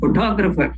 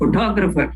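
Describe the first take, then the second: First: The stress is on the second syllable. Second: The stress is on the second syllable.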